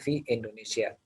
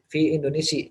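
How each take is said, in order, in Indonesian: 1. Nama itu berakhir dengan vokal 'a'. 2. Nama itu berakhir dengan vokal 'i'. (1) "harus kita bilangin bahwa kita mengatakan" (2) "jangan bilang fi Indonesia"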